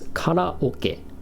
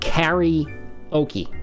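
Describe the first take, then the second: First: The first vowel is an 'ah' sound. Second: The first vowel is an 'eh' sound. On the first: The speaker calls it right. "It's karaoke" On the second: The speaker calls it wrong. "It's not karaoke. What about the letter A says to you that you should pronounce this E?"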